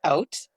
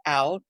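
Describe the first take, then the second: First: "Out" with a rounded O, near OAT; Canadian pronunciation. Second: "out" with a wide A, OWT; American pronunciation. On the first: Shooting example words at co-host, Canadian "Out" near OAT. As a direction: say "Out" the Canadian way, louder. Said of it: "we say in Canada". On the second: Shooting example words at co-host, American "out" with wide A. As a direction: say "out" the American way, louder. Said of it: "you add an A instead of an O". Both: Shown as a demonstration.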